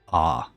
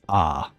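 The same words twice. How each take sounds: First: It is said with a very open mouth. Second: It is said with a very open mouth.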